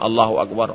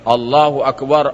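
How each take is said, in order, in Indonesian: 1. Diucapkan dengan pelan, volume rendah. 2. Diucapkan dengan keras, volume tinggi. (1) "Kalau hanya ... tak mungkin dengar" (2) "Pasti suara mengucapkannya ... barulah didengar bapak di luar"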